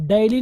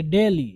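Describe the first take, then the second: First: DAILY said with an "ai" glide, "daily" as "die-lee"; wrong pronunciation. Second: DAILY with a pure "e" vowel, "day-lee"; correct pronunciation. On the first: Teacher warning learners off a misreading, wrong pronunciation. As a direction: say "डेली" as "dai-li". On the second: Teacher giving learners the right reading, correct pronunciation. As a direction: say "डेली" as "de-li", no "ai" glide. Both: Shown as a demonstration. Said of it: "इसको आप डेली नहीं पढ़ेंगे".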